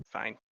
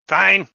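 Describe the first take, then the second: First: Said in the usual way. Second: Loud exasperated "Fine!"; exasperated shout. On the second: Real, not acted. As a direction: throw up hands and yell it. GM exasperated, giving in.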